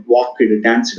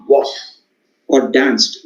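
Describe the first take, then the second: First: "walked, danced" as walk-ed, dance-ed; stressed E-D ending. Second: "walked, or danced" as walkt, or danst; one syllable each for "walked" and "danced", finishing in T; T-sound ending. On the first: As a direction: give "walked, danced" an extra ED syllable. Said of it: "you stress on it". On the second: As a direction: end both "walked" and "danced" on a T. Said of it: "make the sound T". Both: Shown as a demonstration.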